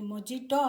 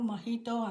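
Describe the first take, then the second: First: The middle consonant is a J sound. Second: The middle consonant is an H sound. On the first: The speaker calls it wrong. "దీనిని మొజిటో అనరు" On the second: The speaker calls it right. "మొహిటో అంటారు"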